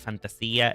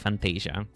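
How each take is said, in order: First: The name is pronounced with Spanish sounds. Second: The name is pronounced with English sounds. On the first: "If you speak Spanish, it will probably be Fantasia" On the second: "If you speak English, it will be Fantasia"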